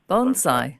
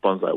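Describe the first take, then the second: First: The first syllable sounds like 'bone'. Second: The first syllable sounds like 'bon'. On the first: "Pronounce kind of like bone" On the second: "But um, bonsai works too"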